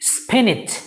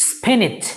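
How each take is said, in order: First: The second syllable sounds like 'nitch'. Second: The second syllable sounds like 'nitch'.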